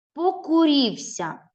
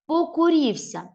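First: Покурівся slowly and higher, each syllable clear; slow syllable reading. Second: Покурівся higher with a falling end; model repeat. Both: Shown as a demonstration. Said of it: "Дивне слово".

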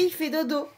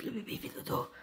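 First: Said in the usual way. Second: Unvoiced whisper over crib. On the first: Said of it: "hushed repeated phrase". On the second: Real, not acted. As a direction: whisper it very softly. Whispered repetition.

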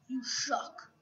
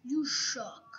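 First: Unvoiced whispered insult. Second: Said in the usual way. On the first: Shown as a demonstration. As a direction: whisper it under your breath. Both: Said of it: "repeated in whisper".

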